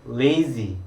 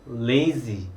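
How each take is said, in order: Both takes have the same delivery.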